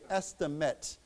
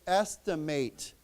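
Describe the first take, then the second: First: The last syllable has a weak reduced vowel. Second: The last syllable has a full long A vowel. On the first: It is used as a noun. "here it's a 名词, so we say estimate. Okay, so we don't pronounce that long a" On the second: It is used as a verb. "if this becomes a 动词, then we pronounce this a with a long a"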